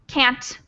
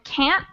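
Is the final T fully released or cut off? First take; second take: released; cut off. First: The final T is fully released. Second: The final T is cut off, not fully released. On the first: "I don't say can't" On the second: "I don't really pronounce the T all the way"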